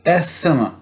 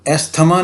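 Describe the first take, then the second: First: The th merges into an s-like sound. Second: The th is said as a hard t-h. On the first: The speaker calls it right. "ये है एस्थमा" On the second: The speaker calls it wrong. "एस्थमा नहीं है"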